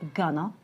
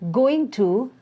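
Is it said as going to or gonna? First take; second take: gonna; going to. First: The words are merged into one reduced word. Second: Both words are said fully and separately.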